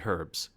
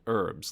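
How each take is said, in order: First: The word begins with an audible h sound. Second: The word begins with a silent h. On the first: This is how people say it locally. "here you say herbs" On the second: This is how people say it in Canada. "in Canada we called it herbs, like an herb garden"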